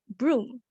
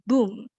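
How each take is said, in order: First: An 'r' sound follows the 'b'. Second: No 'r' sound follows the 'b'. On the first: "the child tend to omit the R sound when she pronounced the word broom" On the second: "she pronounced it as boom"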